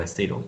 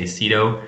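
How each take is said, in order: First: "Sedo" said the European way, like SAY-doh; "Sedo" with a European ay in the first syllable; European pronunciation. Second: "Sedo" said the English way, like SEE-doh; "Sedo" with an English long ee in the first syllable; English pronunciation. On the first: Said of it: "in most European countries, people say". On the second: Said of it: "In English, we would always say". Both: Shown as a demonstration.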